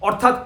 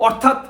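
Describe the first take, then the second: The two takes are said the same way.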